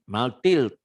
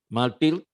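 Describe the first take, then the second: No difference in how they are said.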